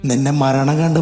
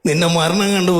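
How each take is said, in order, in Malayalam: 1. ഇത് പരുക്കൻ വില്ലൻ ശബ്ദം അനുകരിച്ചാണ് പറഞ്ഞിരിക്കുന്നത്. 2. ഇത് കോഴിക്കോടൻ ഹാസ്യ ശൈലി അനുകരിച്ചാണ് പറഞ്ഞിരിക്കുന്നത്. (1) "മണിച്ചേട്ടൻ അവതരിപ്പിച്ച നടേശൻ എന്നൊരു കഥാപാത്രത്തെ" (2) "ഈ ഒരു സംഭാഷണം നമ്മുടെ മാമുക്കോയിലൂടെ അവതരിപ്പിക്കുക"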